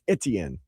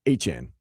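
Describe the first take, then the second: First: The name is said as 'et-ee-en'. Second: The name is said as 'ay-chan'. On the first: This is the version everyone has been using. The speaker calls it wrong. "Saying that's not right" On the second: This is how the family says it. The speaker calls it right. "It's Achan"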